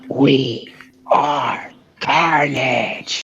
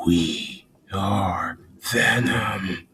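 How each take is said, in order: First: Very slow, strained villain voice; drawn-out symbiote declaration; Carnage. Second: Deep, whispery monster voice, very slow; drawn-out, breath-heavy symbiote growl; Venom. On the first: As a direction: stretch each word out in a monster voice. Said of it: "my, my go like". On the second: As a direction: rasp each word out long and deep. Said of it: "Can you do a Venom voice?". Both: Shown as a demonstration.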